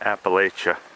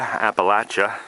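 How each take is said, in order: First: It is said the way outsiders say it. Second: It is said the way Appalachian locals say it.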